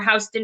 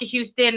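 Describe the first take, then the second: First: The name is said the New York City way. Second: The name is said the usual way.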